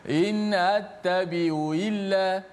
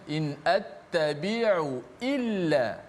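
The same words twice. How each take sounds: First: The glottal stops are slurred and unclear. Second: Each glottal stop is clearly pronounced. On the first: The speaker calls it wrong. "Jangan kita sebut macam ni ... tak jelas" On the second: The speaker calls it right.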